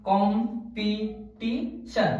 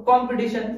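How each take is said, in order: First: competition very slowly as কম, পি, টি, শন; broken into syllables. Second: Said in the usual way. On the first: Shown as a demonstration. Teacher counts out four parts, competition in slow separated syllables. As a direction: pull competition apart into four parts with gaps between. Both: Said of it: "চারটা অংশ আছে".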